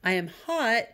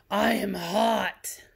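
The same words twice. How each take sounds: First: Said in the usual way. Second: Slow, drawn-out exclamation; exclaimed. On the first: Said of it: "did it say, "I am hot"?". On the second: Shown as a demonstration. Teacher demonstrates the exclamation-point reading to students, drawn out. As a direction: stretch it out like you're overheated. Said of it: "Exclamation point".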